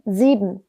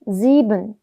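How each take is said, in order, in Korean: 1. 끝소리는 약한 음절성 n으로 흐리게 발음합니다. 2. 끝소리는 약한 음절성 n으로 흐리게 발음합니다.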